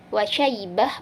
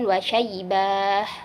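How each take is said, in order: First: The vowel near the end is kept short. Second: The vowel near the end is drawn out long. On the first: The speaker calls it right. "Jadi cukup wa syaibah" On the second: The speaker calls it wrong. "kenapa dibaca panjang? Sedangkan tidak ada tanda panjang"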